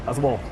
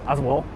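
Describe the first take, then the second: The two takes are said the same way.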